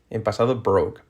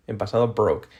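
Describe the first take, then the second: No difference in how they are said.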